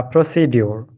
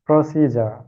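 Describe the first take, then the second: First: "procedure" said as pro-si-dyol; habitual mispronunciation. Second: "procedure" said as pro-SEE-ja; newly learned pronunciation. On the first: Student shows teacher their habitual way, mispronounced. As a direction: end "procedure" in dyol, with a d and no j sound. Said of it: "I always, uh, pro-, pronounce it". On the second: Student repeats what the teacher taught, corrected pronunciation. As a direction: end "procedure" in a j sound, ja. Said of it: "I have learned from you is". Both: Shown as a demonstration.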